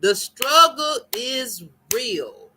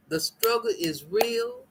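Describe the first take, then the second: First: "struggle" stretched and slow, falling; "The struggle is real" slow, stressing "struggle"; emphatic. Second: Said in the usual way. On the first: Shown as a demonstration. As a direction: lean hard on "struggle", slowly.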